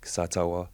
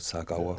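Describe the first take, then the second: First: The middle consonant is a t sound. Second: The middle consonant is a k sound. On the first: It is the formal, posh way of saying it. "if it's posh, like" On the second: It is the everyday way of saying it. "but like in general"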